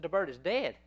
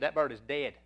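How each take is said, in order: First: Higher, incredulous echo on DEAD; surprised echo question. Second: Said in the usual way. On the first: Retold or imitated. Shop lady hearing the pet has died, surprised question. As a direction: repeat it back in disbelief, voice lifted on "dead".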